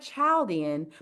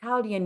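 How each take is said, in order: First: It is pronounced the way the spelling suggests. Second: It is pronounced the traditional, established way. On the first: The speaker calls it wrong. "it looks like Chaldean" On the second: The speaker calls it right. "they pronounce it Chaldean"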